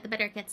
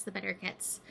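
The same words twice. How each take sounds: First: Said in the usual way. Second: Softer, lower, fading repeat; quiet. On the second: Shown as a demonstration. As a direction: let it fall away softly.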